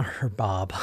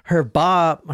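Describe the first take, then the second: First: Much lower and softer, mocking; low mocking murmur. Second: Said in the usual way. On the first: Shown as a demonstration. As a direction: drop it low and soft, teasing.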